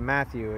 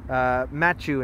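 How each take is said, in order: First: The name is said with a standard accent. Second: The name is said with a Dutch accent. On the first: The speaker calls it right. "instead of Matthew" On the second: The speaker calls it wrong. "She has an accent. She's Dutch... she just could never say my name 100% correctly"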